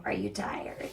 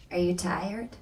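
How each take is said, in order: First: Hushed, low mock concern; mocking coworker. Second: Said in the usual way. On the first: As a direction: drop to a soft mocking near-whisper. Same question repeated, mocking the coworker.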